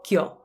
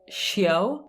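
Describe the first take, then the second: First: The syllable is said with an Italian accent. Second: The syllable is said with an English accent. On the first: The speaker calls it right. "In Italian, we say" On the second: The speaker calls it wrong. "In English, we say"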